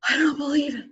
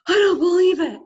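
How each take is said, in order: First: Higher, hushed awe; stunned disbelief. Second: Much higher and louder cry of disbelief; amazed exclamation. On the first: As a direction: Luke breathing out his amazement. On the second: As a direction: burst out in astonishment. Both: Retold or imitated. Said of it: "And Luke goes".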